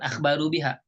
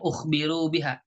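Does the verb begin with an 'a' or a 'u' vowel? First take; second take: a; u. First: The verb begins with an 'a' vowel. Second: The verb begins with a 'u' vowel. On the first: They informed about it. The speaker calls it wrong. "bukan akhbaru biha" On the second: They were informed about it. The speaker calls it right. "Ini yang enaknya bacanya ukhbiru biha"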